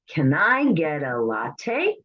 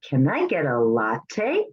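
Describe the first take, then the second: First: The words run together in relaxed speech. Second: The words run together in relaxed speech.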